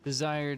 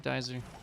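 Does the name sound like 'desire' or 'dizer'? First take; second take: desire; dizer. First: The name sounds like the word desire. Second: The name is said as two-syllable dizer. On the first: The speaker calls it wrong. "I've been saying desire this whole time" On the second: The speaker calls it right. "now we know"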